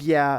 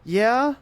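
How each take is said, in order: First: The voice falls at the end. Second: The voice rises at the end.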